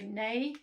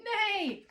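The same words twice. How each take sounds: First: Said in the usual way. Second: High, loud falling neigh; imitated horse neigh. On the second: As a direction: cry it out like a horse. Repeats goose's pretend horse noise.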